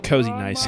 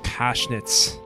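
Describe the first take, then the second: First: The name sounds like 'cozy nice', English words. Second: The name sounds like 'koshnitz', two syllables. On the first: The speaker calls it wrong. "I'm still going to say Kozienice County" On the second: The speaker calls it right. "It's actually pronounced Koshnitz"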